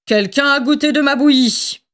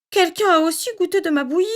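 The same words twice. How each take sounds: First: Grumbling father bear, put-on voice; storybook papa bear grumbling at his porridge; Papa Bear's big voice. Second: Higher, quicker, gentle mother bear; storybook mama bear, soft and quick; Mama Bear's soft voice. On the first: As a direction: rumble it like a cross bear dad. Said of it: "gronda Papa Ours de sa grosse voix". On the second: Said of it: "dit Maman Ours de sa voix douce". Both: A narrator's reading.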